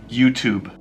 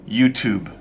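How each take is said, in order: No difference in how they are said.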